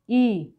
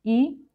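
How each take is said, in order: First: Long ई, drawn out; long vowel. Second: Short ई, said at once; short vowel. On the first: Teacher contrasts vowel lengths for learners, long vowel. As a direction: stretch the ई sound. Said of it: "इसको थोड़ा खींच के बोलते हैं". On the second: Teacher contrasts vowel lengths for learners, short vowel. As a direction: say ई quickly without stretching it. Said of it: "छोटा है उसको थोड़ा एकदम से बोल". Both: Shown as a demonstration.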